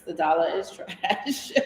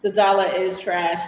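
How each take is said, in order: First: Laughing through the words; en riant. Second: Said in the usual way. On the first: Real, not acted. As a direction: chuckle while repeating it. Repeats comment laughing.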